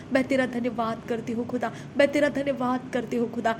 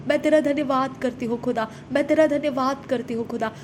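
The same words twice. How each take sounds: The two takes are said the same way.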